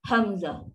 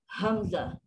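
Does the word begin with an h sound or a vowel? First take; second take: h sound; h sound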